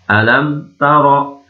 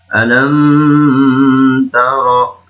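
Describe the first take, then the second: First: The m is clear and moves quickly on. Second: The m is held and nasalized before moving. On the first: The speaker calls it right. "Tapi harus jelas mimnya" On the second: The speaker calls it wrong. "Jangan dibaca alam taro"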